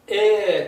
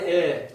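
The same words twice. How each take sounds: First: The vowel is held long. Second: The vowel is said short. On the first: "똑같이 길게" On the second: "짧게"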